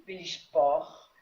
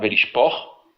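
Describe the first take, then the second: First: "Vélich, por" repeated slowly and carefully, with a little more weight on "por"; student's slow repetition. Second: "Vélich, por" with a rise on "por", which is the closed, unstressed syllable; model pronunciation. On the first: Student repeats the teacher's model, "Vélich, por" said slowly. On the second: Teacher models Hebrew syllables for a student, "Vélich, por" rising on "por". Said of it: "Donc on dira donc". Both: Shown as a demonstration.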